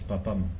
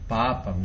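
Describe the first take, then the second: First: The a vowels are cut short. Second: The a vowels are held long. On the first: The speaker calls it wrong. "no es papam" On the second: The speaker calls it right. "las A's largas son largas"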